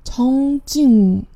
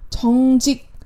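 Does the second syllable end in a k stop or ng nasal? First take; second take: ng nasal; k stop. First: The second syllable ends in a nasal ng sound. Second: The second syllable ends in a clipped k stop. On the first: "变成了정직这样一个音" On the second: "停职정직这个词"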